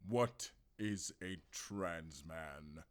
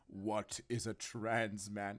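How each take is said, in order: First: It is said in a put-on character voice. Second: It is said in the speaker's normal voice.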